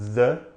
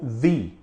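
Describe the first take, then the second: First: The vowel is a short, closed 'uh' sound. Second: The vowel is an 'ee' sound. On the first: "com o som mais fechado" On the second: "com o som mais parecido com o som de i"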